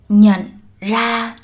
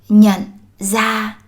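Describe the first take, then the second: First: The second word begins with an r sound. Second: The second word begins with a z sound. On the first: This is the southern pronunciation. "She pronounces words starting with R the southern way" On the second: This is the northern pronunciation. "in the North, the R sound is pronounced as z"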